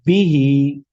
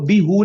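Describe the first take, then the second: First: The word ends with an i vowel. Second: The word ends with a u vowel. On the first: The speaker calls it right. "इसकी मिसाल बिही" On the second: The speaker calls it wrong. "हम इसको बी हु नहीं पढ़ेंगे, बल्कि बोलने में क्या हो जाएगा, मुश्किल हो जाएगा।"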